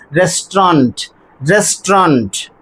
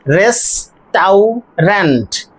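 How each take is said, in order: First: Restaurant in two syllables, res-tront; correct restaurant. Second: Restaurant drawn out very slowly, res-tau-rant; restaurant in three syllables. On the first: Teacher giving the right restaurant, two syllables. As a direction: restaurant said as rest-ront, no middle vowel. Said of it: "the correct pronunciation is". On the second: Teacher showing restaurant's three written syllables. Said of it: "three syllables over here". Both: Shown as a demonstration.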